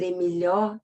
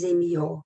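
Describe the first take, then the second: First: "Emilhó" said with the l sound kept; "Emilhó" with the l pronounced; written form. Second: "Emilhó" said as "Emió", with the l dropped; "Emilhó" sounding like "Emió"; folk pronunciation. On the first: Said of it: "Pra dizer Emilhó". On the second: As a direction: drop the l, the popular way. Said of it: "Pra dizer Emilhó, diz Emilhó". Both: Shown as a demonstration.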